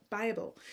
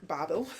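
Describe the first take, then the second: First: Said in the usual way. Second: Bible drawled in a Southern Georgia twang; Georgia twang slip. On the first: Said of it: "I grew up in Georgia". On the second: Real, not acted. Tired knitting vlogger's Georgia twang slipping out on Bible. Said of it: "there are times when the twang comes out".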